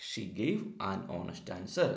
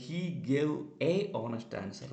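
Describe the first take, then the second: First: "an honest" joined, h silent; "an honest answer" said the right way; right article. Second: "a honest" with a sounded h; "a honest answer" said the wrong way; wrong article. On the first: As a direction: link "an" straight onto "honest". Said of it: "അല്ലാതെ ... എന്നല്ല". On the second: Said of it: "എന്നല്ല". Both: Shown as a demonstration.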